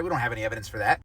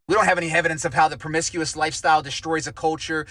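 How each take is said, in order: First: Low, soft, mocking aside; quiet sarcasm. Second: Don't pushed hard in full voice; stress on don't. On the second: Acted. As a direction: lean on don't, sarcastic and firm. Sarcastic repeat, stress on don't.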